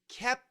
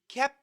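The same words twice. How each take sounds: First: Said carefully with the P sound fully released. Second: Said faster with the P stopped, not released. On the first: "perfect pronunciation" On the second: "The faster we say it, we're going to stop the P"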